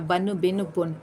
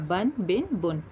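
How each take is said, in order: First: The final n is released with an echoing bounce. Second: The final n is held still without release. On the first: The speaker calls it wrong. "इसमें कलकला नहीं करना, बन बिन बुन ऐसे नहीं पढ़ना" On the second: The speaker calls it right. "साकिन करना"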